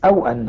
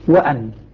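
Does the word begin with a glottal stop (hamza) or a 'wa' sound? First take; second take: glottal stop; wa sound. First: It begins with a glottal stop and 'aw'. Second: It begins with a 'wa' sound, no glottal stop. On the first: This is the reading of the Kufan reciters. "الكوفيون يقرؤون أو بهمزة مع واو ساكنة" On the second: This is the reading of the remaining reciters. "باقي القراء يقول"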